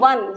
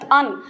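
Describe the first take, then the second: First: The word begins with a w sound. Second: The word begins with a plain vowel sound. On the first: The speaker calls it right. "हम इसे क्या कहते हैं? वन" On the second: The speaker calls it wrong. "We don't pronounce it as अन"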